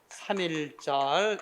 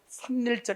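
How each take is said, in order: First: No extra sound comes before the second syllable. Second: An extra n sound comes before the second syllable. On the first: The speaker calls it right. "그대로 삼일절 이렇게 발음해야 맞다" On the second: The speaker calls it wrong. "이렇게 하면 발음이 더 힘들지?"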